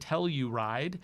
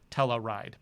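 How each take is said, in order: First: The name is pronounced carefully and precisely. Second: The name is pronounced loosely and sloppily. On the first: The speaker calls it right. "but it's the Telluride" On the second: The speaker calls it wrong. "I kind of got a little sloppy with my pronunciation"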